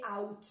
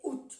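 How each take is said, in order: First: "août" said as "a-oot", A sounded; old-fashioned pronunciation. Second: "août" said as "oot"; silent A. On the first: Teacher showing the former form, "août" as "a-oot". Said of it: "Antiguamente se dice août". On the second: Teacher giving the regional form, "août" as "oot". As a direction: drop the A of "août", keep the final T. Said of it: "pero se ha suprimido la A". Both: Shown as a demonstration.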